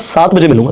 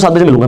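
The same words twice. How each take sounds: First: It is spoken slower with a deeper voice. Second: It is spoken fast and mumbled. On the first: The speaker calls it right. "थोड़ी सी depth के साथ" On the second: The speaker calls it wrong. "जल्दी जल्दी बड़बड़ाते हुए बोल देते हैं"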